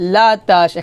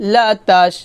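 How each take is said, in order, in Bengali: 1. প্রথম স্বরধ্বনিটি একটি খোলা 'a' ধ্বনি। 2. প্রথম স্বরধ্বনিটি একটি খোলা 'a' ধ্বনি।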